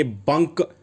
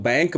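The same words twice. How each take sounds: First: BANK said as "bunk", as spelt; बंक with short a. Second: बैंक with an open 'ai' vowel, as in English "bank". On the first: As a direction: say बंक with a short 'uh' vowel. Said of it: "इस तरीके से निकल आती है". (बंक, छोटे 'अ' के साथ, spelling जैसा) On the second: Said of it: "आई की मात्रा लगाते हैं". (बैंक, 'ऐ' की मात्रा के साथ) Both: Shown as a demonstration.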